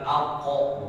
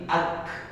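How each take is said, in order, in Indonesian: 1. K-nya memantul keluar dengan vokal pendek setelahnya. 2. K-nya berakhir dengan desis lembut tanpa vokal. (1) "Bacanya sebenarnya bukan ako, bukan begitu" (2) "tapi ak. Yang mendesis itu di langit-langitnya mulut"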